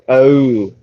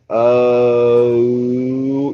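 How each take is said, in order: First: The vowel glides quickly in one short sound. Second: The vowel is drawn out slowly into two parts. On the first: "really quick succession" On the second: "pronounce the vowel O really slowly"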